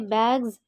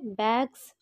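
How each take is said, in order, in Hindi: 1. अंतिम ध्वनि भिनभिनाती हुई z है। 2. अंतिम ध्वनि फुफकारती हुई s है। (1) "इसे बैग्स बोलेंगे" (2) "बैग्स नहीं बोलेंगे"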